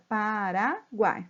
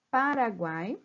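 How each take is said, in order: First: Paraguai, very slow, syllable by syllable; split into syllables. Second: Said in the usual way. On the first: Shown as a demonstration. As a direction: drag Paraguai out one syllable at a time. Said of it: "Então, eu separo". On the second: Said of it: "eu tenho aqui".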